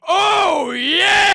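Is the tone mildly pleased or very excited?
very excited. It sounds very excited and enthusiastic.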